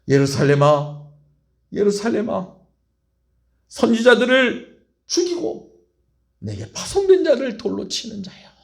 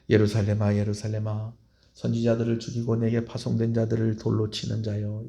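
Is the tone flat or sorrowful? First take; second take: sorrowful; flat. First: It is said in a sorrowful, aching tone. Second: It is read in a flat, restrained tone. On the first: The speaker is heartbroken over the listeners. The speaker calls it right. "이런 억양으로 안타까운 마음으로" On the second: The words are simply read aloud. The speaker calls it wrong. "여러분 예수님께서 이렇게 얘기했겠습니까?"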